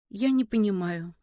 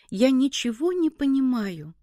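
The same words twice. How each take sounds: First: Low, subdued confusion; bewildered. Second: More emphatic, helpless confusion; bewildered. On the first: Kolya cannot answer Seryozha's argument, mildly bewildered. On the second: Kolya gives up on the argument, emphatically bewildered. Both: A narrator's reading. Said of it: "ответил Коля растерянно".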